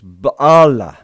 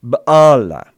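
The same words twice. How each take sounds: First: The first syllable has an open ah vowel. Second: The same.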